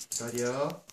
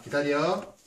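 First: Said in the usual way. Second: Loud, sharp wait order; firm dog commands. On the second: Real, not acted. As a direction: snap the command out.

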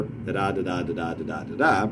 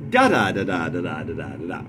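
First: Evenly chanted "da-da" pairs, each second syllable stressed; iambic pentameter. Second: DA-da to start, settling back into iambic rhythm; varied first foot. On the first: Teacher setting up iambic pentameter, every second "da" stressed. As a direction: regular da-DA beat five times over. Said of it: "say, iambic pentameter". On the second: Teacher varying the line, first "da" stressed to shake up the listener. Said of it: "and then you vary it up". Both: Shown as a demonstration.

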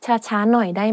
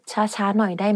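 The two takes are said the same way.

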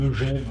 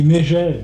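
First: "megève" with a muted e in "me-"; pronounced Megève. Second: "mégève" with an é in the first syllable; pronounced Mégève. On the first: Interviewee giving the other form, pronounced Megève. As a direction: say "megève" with a schwa first. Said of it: "tout le monde dit mégève". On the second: Interviewee giving the common usage, pronounced Mégève. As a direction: say "mégève" with a clear "mé-". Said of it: "On dit mégève, mais megève". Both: Shown as a demonstration.

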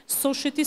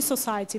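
First: "society" said as "SO-sheh-tee"; mispronounced example. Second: "society" said as "so-SIGH-tee"; pronunciation example. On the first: Teacher showing students a pronunciation slip, "society" mispronounced as "soshety". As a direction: say "society" with a SH sound in the middle. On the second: Teacher contrasting two pronunciations, "society" said as "so-SIGH-tee". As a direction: say "society" with S and a long "eye" in the middle. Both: Shown as a demonstration. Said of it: "Pronunciationga pasayadi. Sos-, uh, misol uchun".

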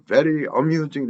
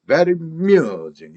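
First: "very amusing" split, with a clear a starting amusing; broken up. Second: "Very amusing" in one run, the a absorbed; linked sounds. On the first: Teacher shows the learners' mistake, "very amusing" chopped apart. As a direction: keep "very" and "amusing" as separate words. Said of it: "이렇게 끊어서 발음하게 되면". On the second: Teacher models it for learners, "Very amusing" joined without a break. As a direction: slide "Very" straight into "-musing". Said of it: "이렇게 바로 나옵니다". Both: Shown as a demonstration.

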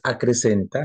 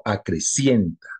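First: Acrecenta, a-cre-CEN-ta, the wrong form. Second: Acrecienta, a-cre-CIEN-ta, the right form; correct form acrecienta. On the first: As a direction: say acrecenta with a plain e, no ie. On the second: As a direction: say acrecienta with the ie diphthong. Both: Shown as a demonstration. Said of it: "No es acrecenta, sino acrecienta".

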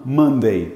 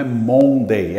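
First: Monday with man sound, mʌn-dei; correct pronunciation. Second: Monday with an open o, as mon; wrong pronunciation. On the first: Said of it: "É man". (Monday com som de man) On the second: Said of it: "Não é Monday". (Monday com o aberto, errado) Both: Shown as a demonstration.

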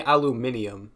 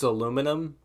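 First: "aluminium" with an extra i before the last syllable; British-style aluminium. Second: "aluminum" in four syllables, stressed on LOO; American aluminum. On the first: Retold or imitated. Puzzled objection to a word, "aluminium" said al-yoo-MIN-ee-um. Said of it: "why'd you say aluminium". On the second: Shown as a demonstration. Correcting a friend's word, "aluminum" the American way. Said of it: "It's aluminum".

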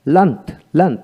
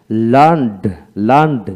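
First: লার্নড ending in a t sound; final T. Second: লার্নড ending in a voiced d; final D. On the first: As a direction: say লার্নড as "learnt". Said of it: "আর এখানে হলো". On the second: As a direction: say লার্নড as "learnd". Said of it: "ডি উচ্চারিত". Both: Shown as a demonstration.

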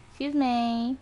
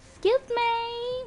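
First: Slightly raised "Excuse me"; drawn-out request. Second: Very high, slow "Excuse me"; exaggerated request. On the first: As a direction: say "Excuse me" with a small rise on "me". Repeats request, escalating it. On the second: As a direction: stretch "Excuse me" out in a high pitch. Same request, exaggerated second take. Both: Real, not acted.

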